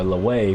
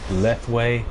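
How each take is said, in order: First: The th sound in the middle is dropped. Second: The th sound in the middle is pronounced. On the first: "where you pronounce it without the T H" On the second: "where you pronounce the T H"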